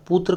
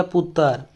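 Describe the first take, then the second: First: Said in the usual way. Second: "पुत्र" as put-tar; tar for tra. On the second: Shown as a demonstration. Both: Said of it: "तर की तरह होता है".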